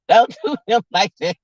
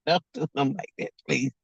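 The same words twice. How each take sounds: First: Said in the usual way. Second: Much softer and quicker, trailing into please. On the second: Retold or imitated. Begging the family to stop joning, soft quick plea. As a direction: drop it away to a hushed quick begging. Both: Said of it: "I be like".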